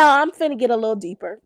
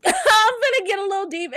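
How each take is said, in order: First: Said in the usual way. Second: Tearful laugh, voice cracking; laughing through tears. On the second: Real, not acted. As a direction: laugh to hold back crying. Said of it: "I ain't never cried on this podcast".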